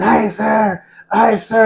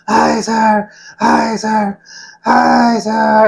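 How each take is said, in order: First: High-pitched strained recruit cry; retold screaming. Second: High, drawn-out recruit scream; louder retold screaming. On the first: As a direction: imitate a recruit screaming to his instructor. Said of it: "he was right there screaming".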